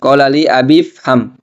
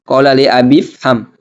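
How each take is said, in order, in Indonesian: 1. 'i' dihilangkan, langsung ke 'fham'. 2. 'i' dihilangkan, langsung ke 'fham'.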